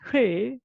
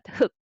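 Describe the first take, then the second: First: The word ends with an l sound. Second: The word ends with a k sound. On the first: The speaker calls it wrong. "it is not her" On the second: The speaker calls it right. "but hook"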